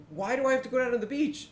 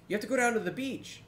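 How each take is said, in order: First: Quick, much higher-pitched mock questioning; retold puzzled question. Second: Quick, higher-pitched quoted instruction; imitated Mumble player. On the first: Gamer questioning the Mumble player's tip, puzzled and high-pitched. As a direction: act out your puzzled reply, voice pitched right up. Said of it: "And I'm like". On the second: Player on Mumble passing on a tip, imitated higher voice. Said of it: "someone on Mumble be like".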